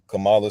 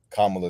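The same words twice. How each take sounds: First: The name is said the Black American way. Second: The name is said the Indian way. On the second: It treats her as an Indian person. "Kamala sounds like an Indian person"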